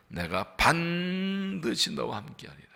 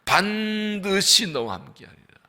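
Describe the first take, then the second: First: 반드시 drawn out, slow and soft; slow soft reading leaning on 반드시; stress on 반드시. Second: 반드시 hit hard, slow and firm; slow firm reading, 반드시 emphasized; stress on 반드시. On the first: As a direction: press 반드시 gently. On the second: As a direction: punch 반드시 with conviction. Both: Shown as a demonstration. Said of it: "반드시 강조했습니다".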